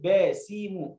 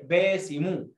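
First: باسم dragged out as با، سي، مو; slow syllable-by-syllable باسم, as the child says it; chopped reading. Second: باسم said as one joined word, baasimu; corrected reading. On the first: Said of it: "خلي الولد يقف على الكلمة". (تقطيع باسم إلى مقاطع ممدودة) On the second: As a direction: model باسم whole, without breaks between syllables. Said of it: "اسمها كده". (نطق باسم موصولة ككلمة واحدة) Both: Shown as a demonstration.

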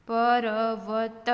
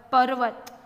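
First: Every letter given its vowel; sounded out. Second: Said in the usual way. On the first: Shown as a demonstration. Teacher breaking a word down, sounded out. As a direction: draw પર્વત out as pa-ra-va-ta.

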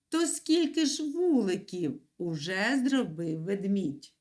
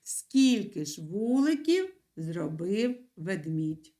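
First: Said in the usual way. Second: Slow, spelled-out dictation pace; teacher dictating the sentence for the pupils. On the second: Shown as a demonstration. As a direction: dictate it slowly so they can write. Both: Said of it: "вам потрібно написати".

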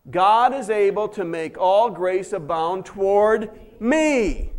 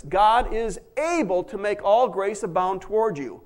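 First: God is able to make all grace abound toward me, said slowly with "me" leaned on at the end; slow, stressed recitation. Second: Said in the usual way. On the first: Shown as a demonstration. Pastor leading the church in a slow creed, stressing "me". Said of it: "put the word me in there". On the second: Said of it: "Now let's say that again".

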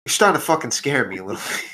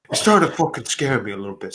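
First: Said in the usual way. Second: Slightly deepened character voice; deep character voice. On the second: Acted. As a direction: settle down into the deeper voice. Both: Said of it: "I also forgot my deep".

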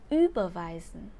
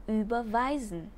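First: Überweisen stressed on the first syllable, ÜBERweisen; wrong version, punch the Ü in überweisen. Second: Überweisen stressed on the second syllable, überWEIsen; right version, lean on WEI in überweisen; correct stress. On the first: Teacher demonstrates the wrong stress on überweisen. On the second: Teacher models the correct stress on überweisen. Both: Shown as a demonstration. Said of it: "trọng âm của động từ überweisen sẽ rơi vào âm tiết thứ hai".

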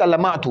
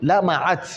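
First: لمعت said the wrong way, as lamat without the ʕ; wrong reading. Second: لمعت said lamaʕat with a clear ʕ and fatha on each letter; correct reading. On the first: Teacher showing students the wrong reading, deliberately mispronounced. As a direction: read لمعت incorrectly to show the mistake. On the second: Teacher correcting the students, careful correct pronunciation. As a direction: give لمعت its full correct form, lamaʕat. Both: Shown as a demonstration. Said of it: "ليس لمعت".

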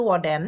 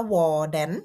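First: Said in the usual way. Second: "Hvordan" slowed, first syllable held long; careful, drawn-out model of "Hvordan"; pronunciation demo. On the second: Shown as a demonstration. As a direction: sound out "Hvordan" slowly for learners. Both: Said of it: "อ่านว่า".

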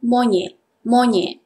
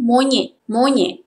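First: Everyday "monyet", T hardly audible; informal Malay pronunciation. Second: Formal "monyet" with its final T; formal Malay pronunciation. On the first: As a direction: say "monyet" as mo-nye. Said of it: "We all say informal pronunciation". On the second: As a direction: say "monyet" carefully, including the T. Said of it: "Formal pronunciation". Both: Shown as a demonstration.

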